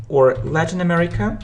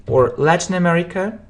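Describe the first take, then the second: No difference in how they are said.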